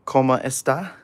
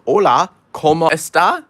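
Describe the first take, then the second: First: Said in the usual way. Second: Higher, louder hammed-up Spanish accent on "Hola, ¿cómo está?"; mock Spanish greeting. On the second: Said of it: "I understand nothing of Spanish except".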